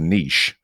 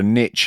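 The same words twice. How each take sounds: First: It is said the British way. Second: It is said the American way.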